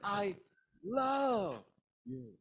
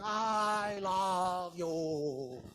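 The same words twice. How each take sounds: First: Only the word love is stressed. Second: Every word is strongly stressed.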